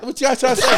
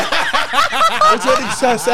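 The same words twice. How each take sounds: First: Said in the usual way. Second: Much higher, slow, laughing; laughing mock outrage. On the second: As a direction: stretch it out, cracking up. Joking offence at fat remark.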